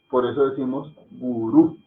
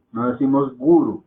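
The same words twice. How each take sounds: First: Gurú with weight on the last syllable rú; stress on the final U. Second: Guru with the first syllable gu stressed; wrong stress. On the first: Teacher shows the correct Hindi gurú, stressed at the end. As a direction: land on rú in gurú. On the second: Teacher imitates how some say guru, wrong stress. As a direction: lean on gu in guru, the mistaken way. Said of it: "como dicen algunos". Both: Shown as a demonstration.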